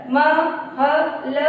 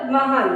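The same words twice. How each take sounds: First: महल slowly split into म, ह, ल; sounded out. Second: Said in the usual way. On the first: Shown as a demonstration. Teacher showing children how to join महल, letter by letter. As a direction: separate and stretch each letter of महल. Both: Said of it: "इस तरह से जोड़ के पढ़ेंगे".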